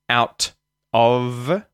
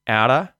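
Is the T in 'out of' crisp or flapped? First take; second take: crisp; flapped. First: A hard T and a clear final V. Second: A flapped T and no final V sound. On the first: "out ends with a hard T... Of ends with a V sound, a voiced V sound" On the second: "the T at the end of out turns into a T flat... the V... disappears completely"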